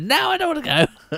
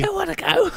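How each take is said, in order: First: It is said in a natural voice. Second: It is said in a put-on breathy voice.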